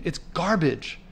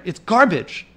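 First: Said in the usual way. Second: Louder, heated outburst; worked up. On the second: Real, not acted. Walking past litter, fed up with the trash, heated. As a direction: spit out the verdict in real anger. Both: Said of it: "Sorry if I'm getting, getting worked up here".

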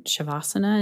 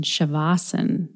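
First: Shavasana with the final "a" sounded. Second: Shavasana with the final "a" dropped; taught pronunciation. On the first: Real, not acted. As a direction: say Shavasana in full, ending on "-na". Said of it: "this was recorded before I talked with Indu". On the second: Shown as a demonstration. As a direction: say Shavasana as "sha-VAH-sun", ending on the n. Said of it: "taught me to use the pronunciation".

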